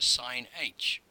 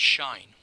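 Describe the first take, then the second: First: It is said as 'sine' plus the letter h. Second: It is said as one syllable, 'shine'. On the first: Some people use this pronunciation. "or even just sine h" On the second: This is the usual pronunciation. "normally pronounced shine"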